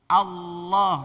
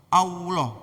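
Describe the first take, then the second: First: The tongue goes straight to L without a glide. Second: Rounded lips add a w-like glide before L. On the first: The speaker calls it right. "langsung L" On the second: The speaker calls it wrong. "monyong dulu sehingga ada sisipan W"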